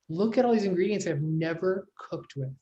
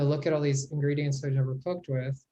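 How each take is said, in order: First: The sentence sounds excited and eager. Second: The sentence sounds scared and overwhelmed. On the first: The unfamiliar food feels like an opportunity. The speaker calls it right. "How exciting" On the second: The unfamiliar food feels intimidating. The speaker calls it wrong. "being less scared by it"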